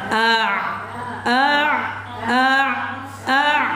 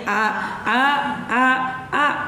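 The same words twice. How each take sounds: First: Each syllable is separated by a clear pause. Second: The syllables run together without any pauses. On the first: The speaker calls it right. "Harus dijeda" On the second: The speaker calls it wrong. "Kalau nggak dijeda jadi"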